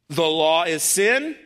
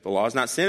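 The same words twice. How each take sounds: First: Slow, incredulous rise to "sin"; sarcastic question. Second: Said in the usual way. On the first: Acted. Preacher voicing Paul's absurd question, slow and sarcastic. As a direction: drag it out, lifting "sin" into a mocking question. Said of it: "I know he's being sarcastic".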